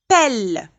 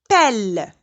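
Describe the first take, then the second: Both takes have the same delivery.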